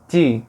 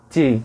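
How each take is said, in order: Both takes have the same delivery.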